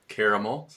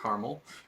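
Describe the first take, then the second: First: The word is said the British way. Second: The word is said the non-British way. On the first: The speaker calls it right. "they're British. Of course, and that's also the right way to pronounce it" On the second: The speaker calls it wrong. "not caramel"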